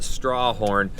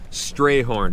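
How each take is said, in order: First: The first syllable sounds like 'straw'. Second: The first syllable sounds like 'stray'. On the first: The speaker calls it wrong. "Don't pronounce it Strawhorn" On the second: The speaker calls it right. "We're turning right on Strayhorn"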